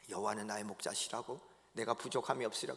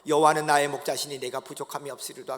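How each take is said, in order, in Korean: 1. 그 구절은 숨을 죽이고 조용히 웅얼거리듯 읊조려요. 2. 그 구절은 또렷하고 평범한 목소리로 말해요.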